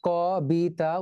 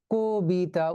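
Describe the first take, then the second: First: "ক বি তা" in pieces, first syllable kaw; as spelt. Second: "কবিতা" slowly as ko-bi-ta; actual pronunciation. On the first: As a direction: sound out "ক বি তা" with open aw, not o. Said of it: "উচ্চারণ করি না". ("ক বি তা" বানান মতো, খোলা অ) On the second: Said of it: "উচ্চারণ করি". ("কবিতা" ধীরে, কো-বি-তা) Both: Shown as a demonstration.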